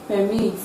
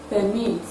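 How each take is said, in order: No difference in how they are said.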